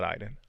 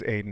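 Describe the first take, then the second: First: "Aiden" starting like the word eye; mispronunciation. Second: "Aiden" starting like the letter A; first syllable of "Aiden" rhymes with day; corrected pronunciation. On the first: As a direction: say "Aiden" wrongly as EYE-den. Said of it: "not Aiden". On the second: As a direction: say "Aiden" as AY-den, with a long A. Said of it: "pronounced like saying the letter A". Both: Shown as a demonstration.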